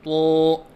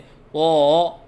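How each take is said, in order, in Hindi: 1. आवाज़ मुंह बंद करके निकलती है। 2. आवाज़ ऊपर-नीचे लहराती है। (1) "मुंह बंद करके पढ़ना" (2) "लहराव के साथ पढ़ना"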